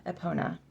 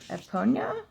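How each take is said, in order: First: "Epona" ending in plain NA; "Epona" with no Y glide, falling; corrected pronunciation. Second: "Eponia" ending in NYA; questioning "Eponia", rising at the end; mistaken pronunciation. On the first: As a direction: say "Epona" as eh-POH-na. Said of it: "It's just". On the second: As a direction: say "Eponia" as eh-POHN-ya. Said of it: "It's just, uh, Epona". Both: Shown as a demonstration.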